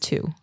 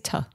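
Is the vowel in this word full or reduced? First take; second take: full; reduced. First: The vowel is full, like 'too'. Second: The vowel is reduced to a short 'uh'. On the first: "nobody says to" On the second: "You say tuh"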